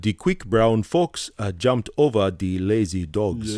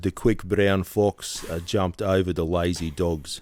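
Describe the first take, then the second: First: It is said in a Nigerian accent. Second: It is said in a South African accent.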